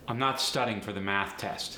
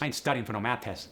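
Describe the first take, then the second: First: Said in the usual way. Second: Quick AAVE, "math" with a T; AAVE sentence. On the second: Shown as a demonstration. Teacher demoing AAVE sentence. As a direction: rattle it off AAVE style. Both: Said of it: "The voiceless T H can also go to a T".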